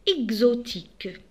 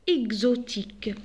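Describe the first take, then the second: No difference in how they are said.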